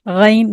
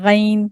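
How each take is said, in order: The two takes are said the same way.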